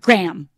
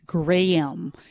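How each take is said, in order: First: Graham is said the common American way. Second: Graham is said the local Canadian way. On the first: The speaker calls it wrong. "not Graham" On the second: The speaker calls it right. "it's Graham"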